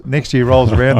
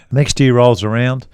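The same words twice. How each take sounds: First: Said in the usual way. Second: Slow, deliberate story beat; slow build-up. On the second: Shown as a demonstration. Teller slowing to set up the twist, drawn out. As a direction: stretch it out to build suspense.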